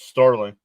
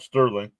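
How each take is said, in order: First: The first vowel sounds like 'ar'. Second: The first vowel sounds like 'er'. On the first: The speaker calls it right. "It's Starling" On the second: The speaker calls it wrong. "It's not Sterling"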